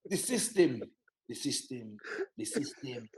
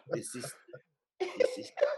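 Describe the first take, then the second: First: Fading repeated grumble, dropping much softer; mock dad refrain. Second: Collapse into laughter mid-phrase; mock dad refrain.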